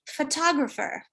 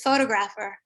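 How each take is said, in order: First: The second syllable is stressed, the others schwa. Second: The vowels stay full with no schwa reduction. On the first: "with stress on the second syllable, and the other syllables turn into a schwa" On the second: "this is actually not native speaker pronunciation"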